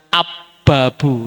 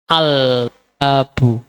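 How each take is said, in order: First: The l sound merges into a doubled b. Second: The l sound is clearly pronounced before b. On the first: The speaker calls it wrong. "Nggak bisa kita baca ab-babu, nggak bisa" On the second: The speaker calls it right. "huruf yang lamnya dibaca jelas"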